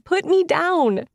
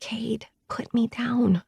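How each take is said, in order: First: Higher, slow, exasperated demand; protesting. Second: Slow, hushed whisper. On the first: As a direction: insist out loud, half laughing. Carried, protesting out loud. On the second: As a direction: breathe it so nobody hears. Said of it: "as I whisper". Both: Acted.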